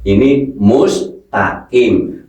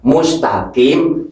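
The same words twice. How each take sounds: First: Slow mustaqim with deep qaf; right mustaqim. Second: Mustaqim with a plain k, kaf sound lost; wrong mustaqim. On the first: Teacher models slow correct mustaqim. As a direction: stretch mustaqim, qaf from the throat. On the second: Teacher shows the wrong mustaqim with k. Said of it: "berarti berubah huruf kaf". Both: Shown as a demonstration.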